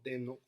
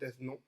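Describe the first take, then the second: First: The name is said with a French pronunciation. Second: The name is said with a Spanish pronunciation. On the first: "o en francés" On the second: "si en español"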